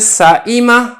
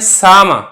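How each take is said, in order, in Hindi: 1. इ स्वर के साथ हमज़ा (ग्लोटल स्टॉप) सुनाई देता है। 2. लंबा आ स्वर हमज़ा की जगह लेता है। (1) "हमजा की हरकत पढ़े" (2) "अगर अलिफ पढ़े"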